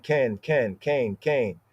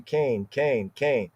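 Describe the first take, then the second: First: "Can, can" said short with a flat a, as in "can"; plain can. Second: "Cain" stretched to a long ay vowel, like the name Cain; emphatic Cain. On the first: Teacher giving the ordinary form of the Hebrew word, "Can" said like English can. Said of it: "Can, or more emphatically". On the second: Teacher showing the emphatic form of the word, "Cain" with a long ay. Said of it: "or more emphatically". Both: Shown as a demonstration.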